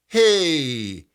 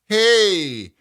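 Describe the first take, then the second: First: It is a soft, breathy sigh. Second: It is said with more energy. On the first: "sighing phrases like" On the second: "and now give it more energy"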